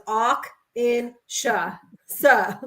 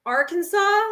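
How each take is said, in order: First: Arkansas broken up slowly as "Awk in Sha, Sa"; mocking "Awk... in... Sha" for Arkansas; mimicked mispronunciation. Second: Arkansas said "AR-kun-saw", with a clear R, pitched up; standard pronunciation. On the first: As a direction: mimic a botched Arkansas, slow and syllable by syllable. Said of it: "that's exactly how it was". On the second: Shown as a demonstration. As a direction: demonstrate Arkansas with the R sounded. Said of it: "I say it the right way".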